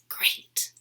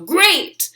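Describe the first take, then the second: First: The word is said in a whisper. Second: The word is said loudly in a monster voice. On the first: "I might whisper it" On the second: "say it loud like a monster"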